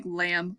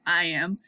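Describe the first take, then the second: First: "lamb" spoken like the animal, starting with an L sound; "lamb" with a clear L, rhymes with ham. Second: "iamb" begins with an eye sound: eye-am; "iamb" spoken as two syllables, eye then am, ending on a light rise. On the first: Teacher showing the word that looks like lamb. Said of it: "It looks like lamb". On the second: Teacher correcting the lamb reading for sixth graders, eye-am. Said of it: "but it's really an I". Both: Shown as a demonstration.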